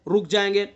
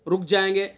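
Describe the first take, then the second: Both takes have the same delivery.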